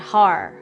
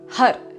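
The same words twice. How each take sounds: First: The word ends with a plain r sound. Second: The word ends with a d-like tapped sound. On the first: The speaker calls it wrong. "rather than Har" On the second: The speaker calls it right. "more like Har, with a D at the end, a U D sound"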